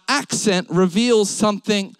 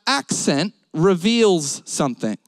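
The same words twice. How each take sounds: The two takes are said the same way.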